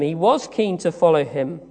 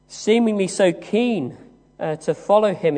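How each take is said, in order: First: "was" lifted as the strong word; stress on WAS. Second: Said in the usual way. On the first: Real, not acted. Preacher defends Peter's devotion, stressing "was". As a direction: lean on "was" to insist it is true. Corrects seemingly to really was.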